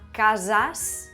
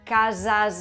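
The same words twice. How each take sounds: First: The final s is a voiceless s sound. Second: The final s is a voiced z sound. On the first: The word is said on its own. "Se decía casas" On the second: The next word begins with a vowel. "la S al final de palabra se pronunciaba z si el sonido previo era vocálico y la palabra siguiente empezaba por vocal"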